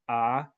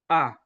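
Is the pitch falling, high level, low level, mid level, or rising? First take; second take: rising; falling. First: The pitch goes up during the vowel. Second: The pitch goes down during the vowel. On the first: "for the rising tone" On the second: "we have the falling tone"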